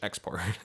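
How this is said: The word is said with an English pronunciation. "Literally export, like in English"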